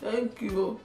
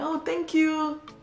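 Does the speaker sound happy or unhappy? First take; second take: unhappy; happy. First: It is said in an unhappy, flat way. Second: It is said in a happy, warm way.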